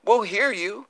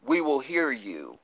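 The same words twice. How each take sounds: First: Sing-song higher echo with a rising end; mocking echo. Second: Said in the usual way. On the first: Real, not acted. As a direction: toss it back at them teasingly, pitched up. Repeats the line to taunt critics.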